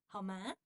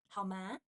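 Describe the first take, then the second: Both takes have the same delivery.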